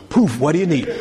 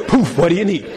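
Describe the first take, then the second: First: Tired genie popping out; weary magic genie voice. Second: Louder laughing genie; bigger, laughing genie take. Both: Retold or imitated. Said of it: "jump out and go".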